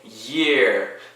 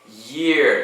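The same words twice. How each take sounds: First: The opening y sound is drawn out strongly. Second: The opening y sound is light and quick.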